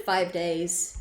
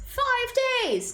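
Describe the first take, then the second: First: Said in the usual way. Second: Much higher, drawn-out cry of disbelief; shocked exclamation. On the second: Real, not acted. Streamer reacting to five days, shocked exclamation. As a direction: repeat it high, stretching FIVE.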